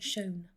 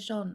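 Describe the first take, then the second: First: It is said in an American pronunciation. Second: It is said in a non-American pronunciation. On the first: "Americans say shone" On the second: "I say shone"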